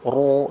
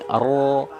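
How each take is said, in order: First: The r sound is made with rounded lips. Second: The r sound is heavy with raised tongue root. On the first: The speaker calls it wrong. "huruf roknya suka dilibatkan bibir" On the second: The speaker calls it right. "tebalnya itu dengan mengangkat pangkal lidah"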